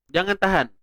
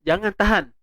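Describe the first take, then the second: No difference in how they are said.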